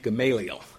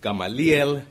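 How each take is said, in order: First: The name is pronounced with English sounds. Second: The name is pronounced with Spanish sounds. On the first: "We would pronounce the first name Gamaliel" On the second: "but in Spanish it's Gamaliel"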